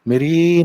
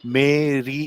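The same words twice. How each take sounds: First: Both vowels are clipped short and said quickly. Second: Both vowels are drawn out to full length. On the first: The speaker calls it right. "कितने जल्दी वो मे और रे से निकल गए" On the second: The speaker calls it wrong. "वो ऐसे नहीं बोलते मेरी ऐसे नहीं बोलते"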